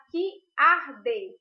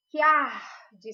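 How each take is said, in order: First: "que arde" loud and slow, word by word; separated syllables. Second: "que arde" run together as one long, loud "kiar-de"; "que arde" with "que" and "ar" fused, drawn out; joined syllables. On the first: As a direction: pull "que" apart from "arde", each sound spelled out. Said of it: "a gente não separa que arde". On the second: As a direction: glide "que" straight into "ar" and stretch it. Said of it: "Esse que e o ar são ditos juntos". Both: Shown as a demonstration.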